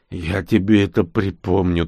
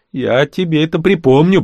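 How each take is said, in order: First: Weak threat. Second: Higher, louder threat, rising on припомню; threatening. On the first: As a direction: mutter a threat with no strength left. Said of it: "только и смог пригрозить я ему". (вяло угрожая) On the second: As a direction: warn him you'll get even. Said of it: "пригрозил я ему". (угрожающе, громко) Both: Acted.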